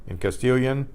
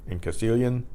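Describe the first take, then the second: The two takes are said the same way.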